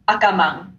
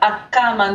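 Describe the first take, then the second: First: The pitch stays flat across the word. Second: The pitch jumps up within the word. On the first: "if there wasn't, it'd be Akama" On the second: "there's a little jump in the intonation"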